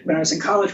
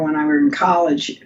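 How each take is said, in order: First: Said in the usual way. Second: "when I were in college" said as a quick grammar slip. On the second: Real, not acted. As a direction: trip over "were" in passing.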